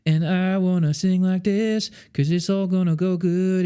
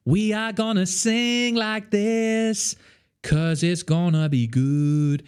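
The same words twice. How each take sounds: First: "sing" and "good" mumbled with a barely open mouth; closed-mouth vowels. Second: High, slow, wide vowels on "sing" and "good"; open-mouthed articulation. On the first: Coach showing the closed-mouth take before the open one. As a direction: keep the jaw tight, vowels muffled. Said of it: "terrified of performing". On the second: Coach demonstrating open-mouthed vowels to students. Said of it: "open your mouth". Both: Shown as a demonstration.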